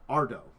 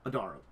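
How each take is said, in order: First: The name is said in a shortened two-syllable form. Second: The name is said in a full three-syllable form. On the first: The speaker calls it wrong. "I think I started correctly and this moved into uh" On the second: The speaker calls it right. "I've been saying it wrong the entire time. It's Adaro"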